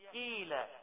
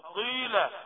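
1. الحرف الأول مرقق وخفيف. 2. الحرف الأول مفخم وثقيل. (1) "هي أقل أو يعني آخر مرتبة من مراتب الترقيق" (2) "لا غلط"

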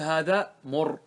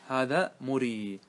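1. تنتهي الكلمة الأخيرة بحرف ساكن. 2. تنتهي الكلمة الأخيرة بياء مدّ طويلة. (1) "فكان الأصل أن نقول هذا مر... لكن هذا لا يجوز" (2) "نرد على الياء، نقول مري"

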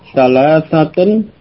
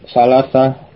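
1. Kata itu berakhir dengan akhiran kasus yang lengkap. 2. Kata itu berakhir tanpa akhiran kasus.

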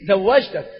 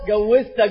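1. تبدأ الكلمة بصوت 'z'. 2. تبدأ الكلمة بصوت 'j'. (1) "الصحيح في اللغة" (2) "هذه في اللغة لا تصح"

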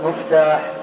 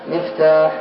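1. الحركة الأولى ضمة. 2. الحركة الأولى كسرة.

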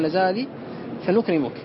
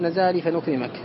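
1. ينتهي الفعل الأخير بضمة. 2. ينتهي الفعل الأخير بفتحة. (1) "ترفع الفعل" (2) "لا تقول"

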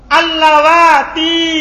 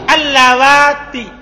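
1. Vokal akhirnya panjang. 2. Vokal akhirnya pendek.

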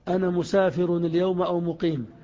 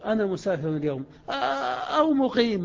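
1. تُقال بشكل متساوٍ دون تباين واضح. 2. يفصل الصوت 'staying' عن بقية الكلام. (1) "ظهرت أو أنها إضرابية بمعنى بل؟ ما ظهرت" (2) "لكن كيف نقولها في النطق؟"

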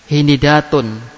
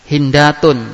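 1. Setelah n ada vokal i. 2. Setelah n tidak ada vokal. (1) "pertama idba"

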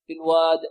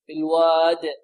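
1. الحرف الأخير فيه قلقلة ضعيفة. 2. الحرف الأخير فيه قلقلة قوية. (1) "القلقلة يحذر الطالب النتيان بها ضعيفة" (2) "وهي هنا أقوى"

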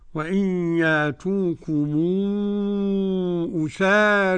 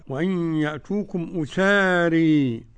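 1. الحركة الأخيرة مُمالة قليلاً نحو 'e'. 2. الحركة الأخيرة مُمالة بقوة نحو 'ee'. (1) "هذا التقليل لورش" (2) "الإمالة الكبرى"

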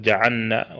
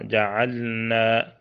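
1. اللام مدغمة في النون التي بعدها. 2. اللام ساكنة بلا قلقلة ولا إدغام. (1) "بعض الناس يضغم اللام في النون" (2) "تسكن بدون قلقلة ولا إدغام"

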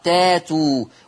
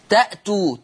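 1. يتحول الهمز إلى حركة ألف طويلة. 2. يُسمع الهمز بعد الحركة الأولى.

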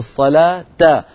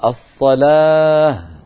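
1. تنتهي الكلمة بصوت التاء والحركة. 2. تنتهي الكلمة بصوت الهاء. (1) "في الوسط نقول الصلاة" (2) "فإن وقفنا نقول الصلاة"

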